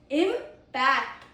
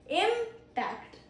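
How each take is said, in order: First: The stress is on the second syllable. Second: The stress is on the first syllable. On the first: It is a verb meaning to strongly affect something. "It is a verb because of the second syllable, stress" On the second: It is a noun meaning a powerful effect or collision. "It is a noun because of the first syllable"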